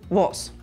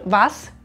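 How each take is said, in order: First: The vowel is shifted toward an o sound. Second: The vowel is a clear a sound. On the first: "zu einem O" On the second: "das A"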